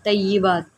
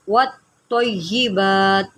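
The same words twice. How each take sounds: First: तय्यिबात said without the joined वत्, as the mistake; demonstrating the common mistake; wrong pronunciation. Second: वत्तय्यिबात with वत् linked onto तय्यि; the correct form वत्तय्यिबात, joined; correct pronunciation. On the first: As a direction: show the error तय्यिबात. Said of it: "इसको तय्यिबात नहीं करना". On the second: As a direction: model the right reading. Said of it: "ये दुरुस्त है". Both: Shown as a demonstration.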